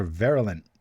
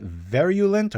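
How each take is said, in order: First: "virulent" said VAIR-uh-lent; pronunciation variant. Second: "virulent" said VAIR-yoo-lent; pronunciation variant. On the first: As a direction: say "virulent" with no yoo, just uh. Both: Shown as a demonstration. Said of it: "am I saying that right".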